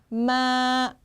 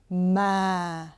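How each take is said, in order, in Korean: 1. 음높이가 평평하게 길게 유지된다. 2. 음높이가 낮게 시작해서 더 낮아진다. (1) "길게 쭉 뻗어줍니다" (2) "평음보다 조금 낮게 시작해서 더 낮게 내리셔야 돼요"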